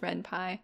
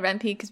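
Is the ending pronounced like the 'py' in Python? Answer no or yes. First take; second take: yes; no. First: The ending sounds like the 'py' in Python. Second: The ending does not sound like Python's 'py'. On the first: The speaker calls it right. "because it's Python, so it's Ren’py" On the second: The speaker calls it wrong. "I always said Ren’py, but I was wrong"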